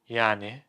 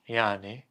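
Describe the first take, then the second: The two takes are said the same way.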